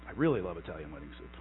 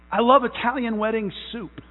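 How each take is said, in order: First: Much lower and softer, fast and dreamy; hushed gushing. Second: Said in the usual way. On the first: Shown as a demonstration. Pastor confessing his love of soup, hushed and fast. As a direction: sigh it out as a secret indulgence.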